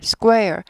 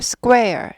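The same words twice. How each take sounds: The two takes are said the same way.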